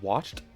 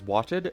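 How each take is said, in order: First: The word is said with one syllable. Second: The word is said with two syllables. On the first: The speaker calls it wrong. "rather than watched" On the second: The speaker calls it right. "two syllables instead of one"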